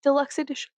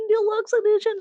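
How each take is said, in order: First: Said in the usual way. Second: Deluxe edition pitched high and louder in a put-on voice; mock creepy emphasis. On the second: Creepy stalker bit, high loud Deluxe edition.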